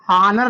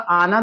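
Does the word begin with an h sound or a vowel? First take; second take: h sound; vowel. First: The word begins with an h sound. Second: The word begins directly with a vowel. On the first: This is how the spelling looks. The speaker calls it wrong. "लिखा हुआ है" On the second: This is the real pronunciation. The speaker calls it right. "उच्चारण जो इसका होगा आनर होगा"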